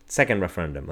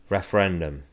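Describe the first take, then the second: First: Second said with extra weight; stress on second. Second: Said in the usual way. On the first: Shown as a demonstration. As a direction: lean on the word second.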